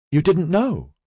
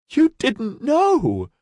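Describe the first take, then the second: First: Higher voice, hopeful question; hope lifting the voice; rising in hope. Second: High, slow, drawn-out wail; nearly a wail. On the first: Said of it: "Her voice had risen in hope". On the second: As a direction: wail through tears of relief. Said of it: "It was nearly a wail". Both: Acted.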